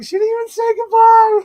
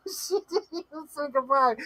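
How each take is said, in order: First: Very high, loud squealed outcry; mock wail. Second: High, softer plaintive echo; mock whimper. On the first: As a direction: wail it out in hammed-up dismay. Acting out chat's dismay, first take. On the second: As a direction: whimper it through laughter, playfully hurt. Repeating chat's dismay after laughing.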